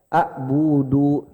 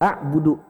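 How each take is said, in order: First: A vowel is held long. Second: The vowels are kept short. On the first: The speaker calls it wrong. "Jangan sekali-kali baca" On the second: The speaker calls it right. "udah dibaca pendek aja"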